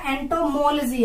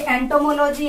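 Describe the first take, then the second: First: एंटोमोलॉजी as ento-MOL-jee; corrected pronunciation. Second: एंटोमोलॉजी as ento-mo-LOH-jee; mispronounced एंटोमोलॉजी. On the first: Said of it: "या एंटोमोलॉजी है?". (एंटोमोलॉजी को एंटोमोल-जी बोलकर) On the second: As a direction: keep लॉजी a separate unit in एंटोमोलॉजी. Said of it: "एंटोमोलॉजी है या एंटोमोलॉजी". (एंटोमोलॉजी को एंटोमो-लोजी तोड़कर) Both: Shown as a demonstration.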